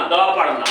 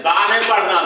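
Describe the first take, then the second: First: "द" clipped short, not "दा"; "द" with a short vowel. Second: "दा" with a long aa, the wrong way; not "दा". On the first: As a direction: say a quick "द". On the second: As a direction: avoid the long "दा". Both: Shown as a demonstration.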